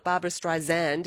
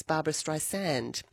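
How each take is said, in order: First: [name] said as "Strei-zand", with a z; mispronounced name. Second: [name] said as "Strei-sand", with a soft s; corrected name. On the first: Host quotes singer rejecting Siri's version, z pronunciation. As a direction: buzz the s of [name] into a z. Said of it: "was mispronouncing her name". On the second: Host quotes singer correcting Siri, soft-s pronunciation. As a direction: keep the s of [name] unvoiced, like "sand". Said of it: "very insistent about pronunciation". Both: Retold or imitated.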